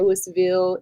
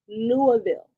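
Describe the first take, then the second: First: The name is pronounced the way outsiders say it. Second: The name is pronounced the way locals say it. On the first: The speaker calls it wrong. "I know some of y'all say Louisville" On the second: The speaker calls it right. "That's how they say it"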